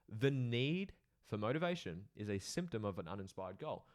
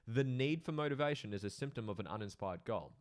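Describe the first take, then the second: First: It is said slowly and deliberately. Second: It is said at a normal pace.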